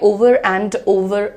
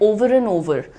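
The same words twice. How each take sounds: First: The phrase is said slowly and carefully. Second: The phrase is said quickly with linked words. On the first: "एक तरीका हो सकता है कि आप बोलें" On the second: "जब आप थोड़ा जल्दी बोलते हैं"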